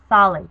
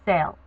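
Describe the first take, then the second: First: The A is stressed. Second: The A is not stressed. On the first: The speaker calls it right. "It's sale. You have to stress the A" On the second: The speaker calls it wrong. "You do not pronounce the L A usted form as sale"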